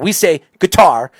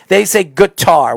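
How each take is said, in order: First: It is said with a plain accent. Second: It is said with a Southern drawl.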